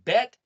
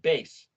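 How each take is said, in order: First: The word ends with a T sound. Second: The word ends with an S sound. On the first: "write it as the letter T"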